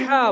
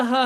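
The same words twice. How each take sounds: First: हा said with a tight, breathy throat h; हा with a hard throat h; throaty ha. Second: हा said with a light, easy h; हा with a plain, light h; soft ha. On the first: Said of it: "जो बड़ा हा है". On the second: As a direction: say हा with a soft, gentle h. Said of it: "जो गोल वाला हा है". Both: Shown as a demonstration.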